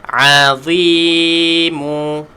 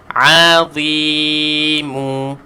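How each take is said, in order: The two takes are said the same way.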